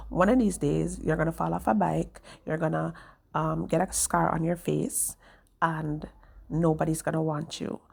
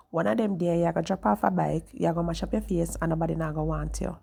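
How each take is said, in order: First: Said in the usual way. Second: Retold warning in Jamaican Patois. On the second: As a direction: quote her in quicker Jamaican Patois. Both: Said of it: "So in Jamaican words".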